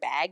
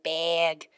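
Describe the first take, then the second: First: The vowel sounds like a plain short a. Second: The vowel is raised, sounding close to 'big'.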